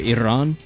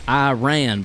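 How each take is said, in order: First: The R is rolled. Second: The R is said plainly, not rolled. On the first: This is an attempt at the proper native pronunciation. "Maybe rolling the R" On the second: This is how it is said in the United States. "in the States, we pronounce it Iran"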